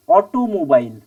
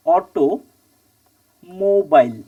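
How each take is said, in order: First: Said in the usual way. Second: "automobile" very slowly in two halves, long gap after অটো; broken into parts. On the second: Shown as a demonstration. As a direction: split "automobile" as অটো, pause, mobile. ("Automobile" খুব ধীরে, মাঝখানে লম্বা বিরতি) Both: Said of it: "কটা এলো?".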